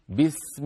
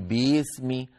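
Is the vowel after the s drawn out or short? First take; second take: short; drawn out. First: The vowel after the s is kept short. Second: The vowel after the s is drawn out. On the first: The speaker calls it right. "قولي بسم الله على طول" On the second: The speaker calls it wrong. "الكسرة في بسمي لا تمطيها زيادة، لا تقولي بسمي"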